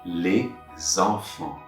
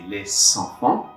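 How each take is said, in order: First: The words are linked with a Z sound. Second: The words are linked with an S sound. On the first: The speaker calls it right. "I'm going to make a Z sound connection" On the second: The speaker calls it wrong. "But I'm not going to say les enfants"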